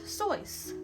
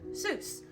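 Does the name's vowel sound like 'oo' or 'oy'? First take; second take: oy; oo. First: The vowel is an 'oy' sound, like voice. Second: The vowel is an 'oo' sound, like juice. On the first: This is the original pronunciation. The speaker calls it right. "the correct way to pronounce this name is Seuss. Think of voice except with an S" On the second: This is the common pronunciation. The speaker calls it wrong. "most people typically pronounce this name as Doctor Seuss"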